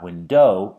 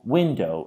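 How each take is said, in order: First: The stress is on the second syllable. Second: The stress is on the first syllable. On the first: The speaker calls it wrong. "It's not window" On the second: The speaker calls it right. "the stress is on the first syllable"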